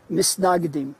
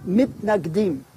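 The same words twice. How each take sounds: First: "Misnagdim" with an s in place of t, Yiddish style; "Misnagdim" said the Yiddish way, s sound; Yiddish pronunciation. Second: "Mitnagdim" said with a crisp t, Hebrew style; "Mitnagdim" with t in the middle, not s; Hebrew pronunciation. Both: Shown as a demonstration. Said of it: "or in the Yiddish pronunciation".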